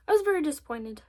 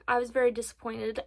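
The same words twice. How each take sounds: First: Milk the disappointment for the viewers; dramatic disappointment. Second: Said in the usual way. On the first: Shown as a demonstration. Showing viewers her makeup letdown, mock dramatic. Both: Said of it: "Sto-, short story".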